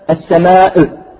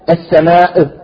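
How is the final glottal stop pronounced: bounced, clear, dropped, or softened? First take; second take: bounced; bounced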